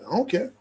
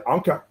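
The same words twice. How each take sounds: First: Said in the usual way. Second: "I don't care" slurred together in imitation of the quarterback; Lamar Jackson's pronunciation. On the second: Host corrects himself to the quarterback's way, "I don't care" slurred in imitation. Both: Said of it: "as he would say".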